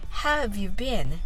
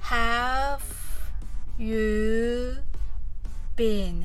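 First: The phrase is said at a fast pace. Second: The phrase is said at a slow pace. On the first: "次は早く言ってみましょう" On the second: "はじめはゆっくりと練習してみましょう"

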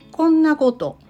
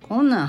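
First: The phrase is said in full, ending in koto. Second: The phrase is shortened, ending in a final n. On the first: This form is rarely used in everyday speech. "あえて大阪弁イントネーションで言うとこんなこととなりますが、日常の口語では使われることは少ないです" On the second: This is the everyday spoken form. "最初のこんなことが困難と変化していますね"

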